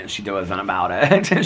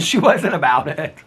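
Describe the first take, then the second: First: Said in the usual way. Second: Higher, amused, a bit slower; laughing repeat. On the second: Shown as a demonstration.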